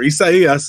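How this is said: The name is said with Spanish pronunciation. "the Spanish version"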